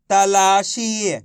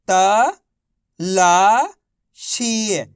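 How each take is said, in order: First: "तलाशी" as one slow, unbroken word; syllables joined. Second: "त-ला-शी" very slowly in three separate syllables. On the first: Teacher joins the sounds for pupils, "तलाशी" as one slow word. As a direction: blend "तलाशी" together, long vowels held. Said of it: "तो मिलके बन जाएगा". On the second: Teacher models reading for pupils, "त-ला-शी" broken into syllables. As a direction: sound out "त-ला-शी", pausing after each syllable. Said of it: "एक अक्षर का उच्चारण करके". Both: Shown as a demonstration.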